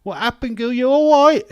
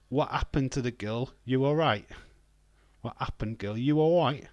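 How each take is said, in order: First: Very loud, high London screech; over-the-top shouted London accent; hammed-up London accent. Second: Mildly put-on London accent; lightly exaggerated London accent; London accent impression. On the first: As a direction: yell the catchphrase in broad London. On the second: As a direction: try out a TikTok London catchphrase. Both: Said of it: "That's, uh, off TikTok".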